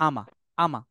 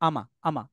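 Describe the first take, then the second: The two takes are said the same way.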